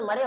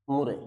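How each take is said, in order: First: मरे said as "ma-re" with a short a; foreign-style मरे, not मुरे; सही उच्चारण मरे; correct pronunciation Murray. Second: मुरे said as "mu-re" with a clear u; Indian pronunciation Murray. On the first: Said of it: "इसका pronunciation मरे होता है". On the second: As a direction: Indian classroom मुरे, with an oo sound. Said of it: "हम लोग मुरे इसलिए बोलते हैं". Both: Shown as a demonstration.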